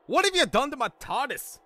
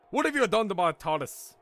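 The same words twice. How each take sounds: First: High-pitched outraged English outburst; angry English bellow. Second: Put-on mildly angry English accent, raised pitch; a restrained first go at outraged bellowing; half-hearted bellow. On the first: Acted. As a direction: bellow in fury with an English accent. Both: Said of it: "bellowed at Doc in an angry English accent".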